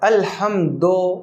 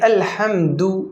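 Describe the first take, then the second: First: The final vowel sounds like 'oh'. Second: The final vowel sounds like 'oo'. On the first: The speaker calls it wrong. "ये गलत है" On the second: The speaker calls it right. "सही है"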